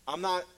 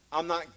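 The two takes are said the same way.

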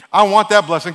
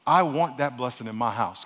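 First: Loud, quick and greedy: "I want that blessing"; fast first telling. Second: Slower retelling. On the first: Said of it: "I know I talk fast". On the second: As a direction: take "I want that blessing in my house" slowly and lower. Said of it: "I'll say it really slow". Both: Acted.

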